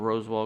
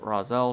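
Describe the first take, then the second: First: The name is said with a clear s-w sound. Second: The name is said with no w sound.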